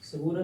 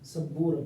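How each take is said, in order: First: The b sound is short and single. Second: The b sound is held and doubled. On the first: The speaker calls it wrong. "कुछ लोग पढ़ने में गलती करते हैं, सबूरा कहते हैं, सबूरा नहीं होगा" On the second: The speaker calls it right. "बापे शद के साथ"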